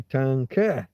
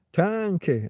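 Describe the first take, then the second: First: "tanque" with a punched final KE; stress on last syllable. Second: "tanque" with TAN higher and pushed; stress on first syllable. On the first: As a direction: hit the end of "tanque". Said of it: "it should be tanque". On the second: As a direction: lean on the start of "tanque". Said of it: "I pressed down at the beginning". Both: Shown as a demonstration.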